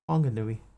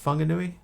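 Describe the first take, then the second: First: The name begins with a breathy HW sound. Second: The name begins with an F sound. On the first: This matches how the spelling looks to an English reader. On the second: This is the currently recommended way of saying it. "now they're saying it should be an F"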